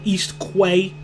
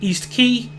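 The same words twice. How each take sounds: First: Quay is pronounced like kway, rhyming with way. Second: Quay is pronounced like the word key. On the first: This is how the speaker said it as a child. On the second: This is how the name is normally said.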